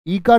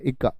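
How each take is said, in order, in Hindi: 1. पहला स्वर दीर्घ है। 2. पहला स्वर लघु है। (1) "ई का नहीं, ई का तो दीर्घ वाली" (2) "इक्का है"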